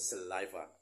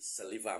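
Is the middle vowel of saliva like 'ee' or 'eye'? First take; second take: eye; ee. First: The middle vowel sounds like 'eye'. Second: The middle vowel sounds like 'ee'. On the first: The speaker calls it right. "ต้องเป็น" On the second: The speaker calls it wrong. "ไม่ใช่เสียงสระ, i, saliva, ไม่ได้นะ"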